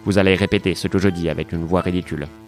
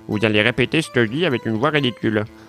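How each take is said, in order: First: It is said in a normal voice. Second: It is said in a silly mocking voice.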